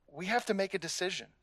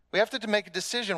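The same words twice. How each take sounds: First: Soft, quick, understated; hushed then repeated; quiet first take. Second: "have" pressed, fast and higher; firm, urgent "have"; stress on have. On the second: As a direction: push hard on "have". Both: Shown as a demonstration.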